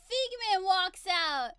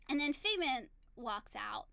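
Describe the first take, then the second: First: Louder, higher, drawn-out announcement; big slow exclaimed reveal; dramatic excited reveal. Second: Said in the usual way. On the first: Retold or imitated. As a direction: announce the star's entrance, stretching the words.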